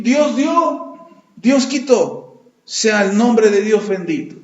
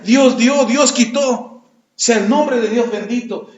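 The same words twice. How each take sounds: First: Slow, reverent acceptance of loss; Job's slow surrender. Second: Slow, reverent acceptance, God gave and took; drawn out and humble; Job's slow surrender. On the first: Job accepting his losses, slowly and reverently. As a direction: let each phrase fall slowly, resigned. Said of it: "lo único que dijo Job fue". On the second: Job telling his wife, slowly and reverently. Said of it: "déjate doy la noticia". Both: Retold or imitated.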